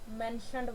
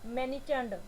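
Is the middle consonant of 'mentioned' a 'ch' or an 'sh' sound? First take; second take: sh; ch. First: The middle consonant sounds like 'sh'. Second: The middle consonant sounds like 'ch'. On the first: The speaker calls it right. "आपका मेंशनड word है ये" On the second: The speaker calls it wrong. "मैनिचंड बुला देते हैं इस word को"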